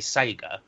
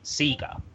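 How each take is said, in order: First: It is said the usual non-Australian way. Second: It is said the Australian way. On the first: This is how people outside Australia say it. "in Australia they don't say Sega" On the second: This is how people in Australia say it. "they say Sega"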